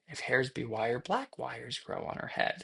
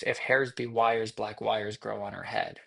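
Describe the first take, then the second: First: The pitch shifts noticeably after the first phrase. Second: The pitch stays level across the phrase. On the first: The speaker calls it right. "The pause is now replaced with a change in pitch or in uh, intonation" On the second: The speaker calls it wrong. "it's not just"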